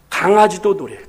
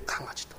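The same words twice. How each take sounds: First: Said in the usual way. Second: 강아지도 breathed in a whisper; 강아지도 whispered like a secret. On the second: Real, not acted. Whispered repeat of punchline.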